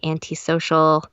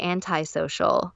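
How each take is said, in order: First: It is said the Canadian way. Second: It is said the non-Canadian way. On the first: "the way they pronounce antisocial is very Canadian" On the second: "I would say antisocial, like anti-flag"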